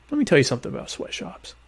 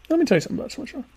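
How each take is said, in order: First: A hint of a preachy pundit launching in; softer mock pundit, self-mocking intro; mock know-it-all. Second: Much higher, overblown know-it-all launch; high hammed-up pundit voice announcing a lecture; pompous pundit. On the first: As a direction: lightly play the opinionated expert about to hold forth. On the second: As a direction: ham up the self-important expert taking the floor. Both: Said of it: "I don't really talk like that".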